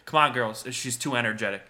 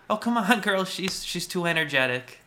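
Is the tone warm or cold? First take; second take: cold; warm. First: It is said coldly and passive-aggressively. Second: It is said warmly, as if smiling.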